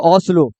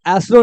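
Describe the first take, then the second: First: The word begins with an 'o' vowel sound. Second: The word begins with an 'e' vowel sound. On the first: The speaker calls it right. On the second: The speaker calls it wrong. "ये एस्लो नहीं होगा"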